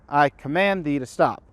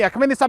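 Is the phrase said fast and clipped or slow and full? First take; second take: slow and full; fast and clipped. First: It is said at normal pace with every word clear. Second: It is rushed, with only key words clearly enunciated.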